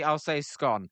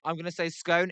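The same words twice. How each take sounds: First: "scone" said to rhyme with gone; scone with short O. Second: "scone" said to rhyme with cone; scone with long O. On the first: Streamer explains how he'll read spellings with no E, "scone" with short O. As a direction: give "scone" a short O, like "skon". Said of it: "If you put with no E". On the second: Streamer explains how he'll read chat spellings, "scone" with long O. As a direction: give "scone" a long OH sound. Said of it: "if you put it like that". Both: Shown as a demonstration.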